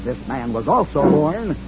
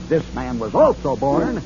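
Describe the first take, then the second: No difference in how they are said.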